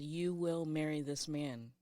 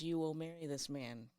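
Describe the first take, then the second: First: It is said forcefully and assertively. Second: It is said calmly, without force.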